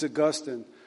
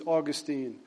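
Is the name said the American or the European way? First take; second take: European; American. First: The name is said the European way. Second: The name is said the American way. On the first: This is how it is said in European countries. "In the European countries, it's Augustine" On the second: This is how it is said in the United States. "In the United States, it's Augustine"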